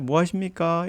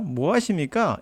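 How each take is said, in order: First: It is said in a polite, respectful tone. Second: It is said in an insulting, mocking tone.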